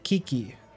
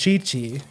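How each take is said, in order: First: The name begins with a k sound. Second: The name begins with a ch sound. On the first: The speaker calls it wrong. "your brain says, "Oh, you say it like Kiki."" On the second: The speaker calls it right. "But no, it's Chi Chi"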